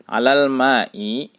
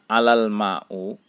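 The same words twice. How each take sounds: First: "Alal ma'i" drawn out slowly, ending on i; correct kasroh ending. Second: "alal ma'u" with the final vowel turned to u; wrong u ending. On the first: Teacher giving students the example, "Alal ma'i" ending in i. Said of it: "Kita contohkan". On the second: Teacher showing students the misreading, "alal ma'u" ending in u. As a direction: end "alal ma'u" on u instead of i. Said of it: "tidak dibaca". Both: Shown as a demonstration.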